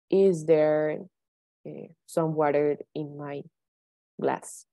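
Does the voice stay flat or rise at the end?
flat. The voice stays flat at the end. The speaker calls it wrong. "I cannot say"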